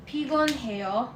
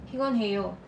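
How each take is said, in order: First: PIGON HEO drawn out syllable by syllable; measured teaching demo of pigon heo; slow model pronunciation. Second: Said in the usual way. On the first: Shown as a demonstration. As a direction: say pigon heo slowly for learners to copy. Teacher slowly models the word.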